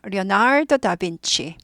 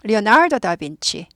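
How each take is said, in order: Both takes have the same delivery.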